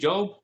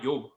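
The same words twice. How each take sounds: First: The word begins with a J sound. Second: The word begins with a Y sound. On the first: "start to say Joe" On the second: "they'll say it like with the Y"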